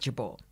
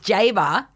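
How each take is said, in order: First: The surname is said the original Lebanese way. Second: The surname is said the local Australian way. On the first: This is the family's original form of the name. "the original pronunciation, the Lebanese pronunciation, and the one that I use now" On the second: This is how people in the home town say it. "It's Jabour. In Grafton"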